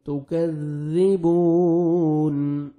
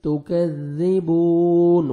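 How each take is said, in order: First: تکذبون chanted very slowly and melodically, vowels drawn out; sung, slow melodic tilawat of تکذبون; sung, Quranic recitation. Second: تکذبون spoken slowly, holding the ba one second, falling at the end; slow spoken tajweed demo; stretched teaching demo. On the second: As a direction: spell تکذبون out carefully, vowel drawn out, nun stopped. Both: Shown as a demonstration. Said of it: "ون second با کو کھینچنا ہے".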